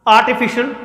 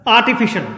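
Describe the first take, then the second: No difference in how they are said.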